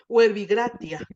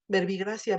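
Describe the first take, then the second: First: It uses the restored classical Latin pronunciation. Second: It uses the traditional Spanish-style pronunciation. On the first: "En nuestra pronunciación restituta, reconstruida" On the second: "la tradición nos ha conservado el verbigracia"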